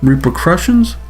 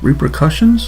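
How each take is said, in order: First: The middle sounds like 'crushings'. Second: The middle sounds like 'cussions'. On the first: The speaker calls it wrong. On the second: The speaker calls it right. "It's not crushings"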